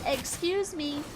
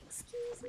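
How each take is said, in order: First: It is said loudly. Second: It is said very quietly.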